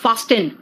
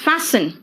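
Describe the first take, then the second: First: The t sound is pronounced in the middle. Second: The t sound is silent in the middle. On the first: The speaker calls it wrong. "It is not फास्टन" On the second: The speaker calls it right. "It is फैसन"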